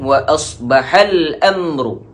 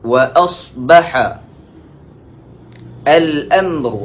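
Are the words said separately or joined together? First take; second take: joined; separately. First: The words are joined together in one flow. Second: The words are said separately, not joined.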